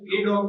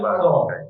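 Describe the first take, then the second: First: The article is said as a full 'ay' sound. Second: The article is said as a short 'uh' sound. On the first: "એ dog ને બદલે" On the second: "આ પણ બોલવા એ બી સાચું છે"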